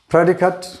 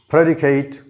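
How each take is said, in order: First: The last syllable has a weak schwa vowel. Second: The last syllable has a full 'ay' vowel. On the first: The word is a noun. "This A here again represents the schwa sound" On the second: The word is a verb. "when this very word is used as a verb, its pronunciation changes"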